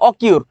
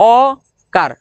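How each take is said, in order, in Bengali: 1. দ্বিতীয় সিলেবলটি 'kyur' এর মতো শোনায়। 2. দ্বিতীয় সিলেবলটি 'kar' এর মতো শোনায়। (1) "অনেকে বলবে অকিউর" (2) "এটার উচ্চারণ হচ্ছে অকার, এই যে এইটা সুন্দর"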